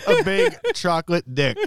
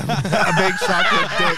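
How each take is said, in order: First: Laughing, drawn out. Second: Slow drawn-out. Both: Real, not acted. Joking guess repeated.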